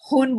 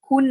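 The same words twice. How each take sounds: First: The word is said in clean Lucknowi Hindi. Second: The word is said in everyday Mumbai-Delhi Hindi. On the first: The speaker calls it right. "Lucknowi साफ Hindi" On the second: The speaker calls it wrong. "खून नहीं"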